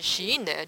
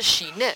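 First: The second syllable is low in pitch. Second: The second syllable is not low in pitch. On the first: It means at last. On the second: It means calm abiding meditation.

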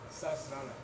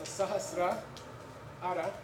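First: The two parts are run together quickly as one. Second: The two parts are said separately with a break.

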